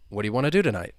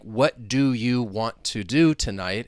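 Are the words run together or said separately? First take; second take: run together; separately. First: The words are reduced and run together. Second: Each word is pronounced separately and fully. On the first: "the way I was pronouncing it, I was just saying" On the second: "you hear each of those individual words"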